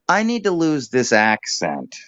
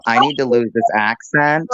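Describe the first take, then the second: First: "I need to lose this accent" starting high on "need" and falling to "accent"; falling tune. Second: "I need to lose this accent" lifting up on "accent" like a question; rising upspeak. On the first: Coaching the co-host, a falling statement tune. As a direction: start high, come down at the end. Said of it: "start your sentence at a higher pitch so you can come down". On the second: Showing the co-host's mistake, a rising upspeak. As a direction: let "accent" float up at the end. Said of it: "instead of". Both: Shown as a demonstration.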